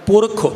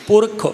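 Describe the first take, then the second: First: A short final u vowel is pronounced. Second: A short final u vowel is pronounced.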